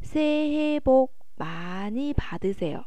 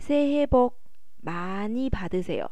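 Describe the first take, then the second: No difference in how they are said.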